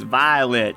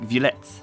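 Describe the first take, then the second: First: It is said like the English word violet. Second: It is said with a French pronunciation. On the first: "in my good old American English, that word right there is violet" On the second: "the word is now French, which would make the pronunciation more like Villette"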